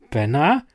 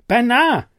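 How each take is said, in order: First: Said in the usual way. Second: Much higher and louder, a desperate call; urgent shout. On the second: A narrator's reading. No answer on the radio, shouting for Bernard. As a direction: yell his name into the radio. Calling colleague over radio.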